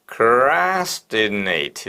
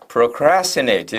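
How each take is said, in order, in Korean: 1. 이 단어는 천천히 길게 늘여서 발음합니다. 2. 이 단어는 보통 속도로 발음합니다. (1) "이렇게 발음하라는 거예요" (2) "이렇게 발음하지 말고"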